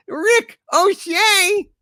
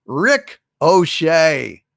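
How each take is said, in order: First: The punchline screamed high and slow; high raging repeat. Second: Slow punchline. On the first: Acted. Furious character shouting the pun back at chat. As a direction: spit the pun back in outrage. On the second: Shown as a demonstration. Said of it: "punchline delivered".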